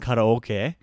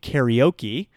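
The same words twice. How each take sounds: First: The word is said with Japanese pronunciation. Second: The word is said with American English pronunciation. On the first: "instead of saying karaoke" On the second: "in English we say karaoke"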